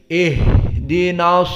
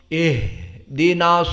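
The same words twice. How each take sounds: First: The h is breathy and held a moment. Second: The same.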